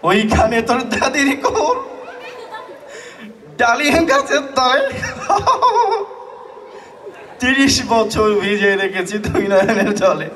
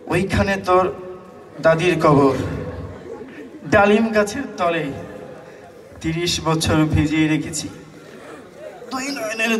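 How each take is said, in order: First: The line is recited through constant laughter. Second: The line is recited without any laughter. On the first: The reciter laughs at everything. "সে খুব হাসে" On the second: The reciter keeps scratching an itch. "সে একটু চুলকানি রোগে আক্রান্ত"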